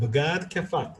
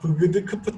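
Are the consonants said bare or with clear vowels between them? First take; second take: with vowels; bare. First: Clear e and a vowels separate the consonants. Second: The consonants are joined by only weak, neutral vowels. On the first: "이런 식으로 에 알을 집어넣어서 발음하는 겁니다" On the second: "우리말 한국식으로 했으면 막 브그드 크프트 이렇게 했을 거예요"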